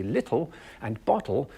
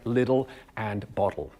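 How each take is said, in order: First: T sounded in "little" and "bottle"; crisp T. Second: T softened to a D in "little" and "bottle"; tapped T. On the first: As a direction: say "little and bottle" with a true, tongue-forward T. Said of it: "we're getting the T". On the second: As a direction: say "little and bottle" the North American way, T as a quick D. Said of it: "instead of it sounding like". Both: Shown as a demonstration.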